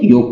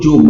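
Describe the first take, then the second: First: The word begins with a y sound. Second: The word begins with a j sound. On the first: This is the Hindi form. "Hindi में योग कहलाता है" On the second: This is the Nagpuri form. "Nagpuri में वो जोग बन जाता है"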